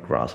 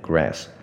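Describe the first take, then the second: First: The word is said without an American accent. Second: The word is said with a heavy American accent. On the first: "我是喜欢念grass 啦" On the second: "这个就是一个所谓的美式发音OK，但是我觉得就是非常非常非常重的美式口音"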